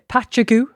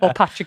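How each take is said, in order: First: The word ends with a goo sound. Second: The word ends with an ag sound. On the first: "some people pronounce this uh" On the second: "like you've just said"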